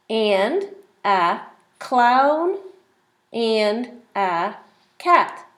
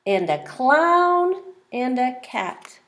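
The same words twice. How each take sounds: First: Very slow, word by word; slow read-along. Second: Slow, word by word; slow read-along. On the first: Teacher reading the page slowly with the child. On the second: Teacher rereading the page slowly with the child. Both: Shown as a demonstration. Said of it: "Let's read the page together".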